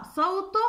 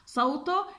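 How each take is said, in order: First: صوته with the letter sound said on its own, no vowel. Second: صوته then a short voiceless th sound, consonant only; letter sound. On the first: Teacher demonstrating the letter ث sound to pupils. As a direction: produce the sound as a lone consonant. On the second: Teacher showing children the sound of the letter ث. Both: Shown as a demonstration. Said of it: "طبعًا يلفظ ساكن".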